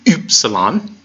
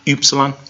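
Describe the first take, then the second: First: The first vowel sounds like German ü. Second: The first vowel is a plain English u. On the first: This is the strictly technical pronunciation. "if you wanted to be real technical about it" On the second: This is the simpler everyday pronunciation. "you can just pronounce it as U, like U yuck"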